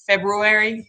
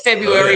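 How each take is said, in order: First: The first r is sounded. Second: The first r is dropped. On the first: This follows the written form. "Nobody says it like that" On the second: This is how people usually say it.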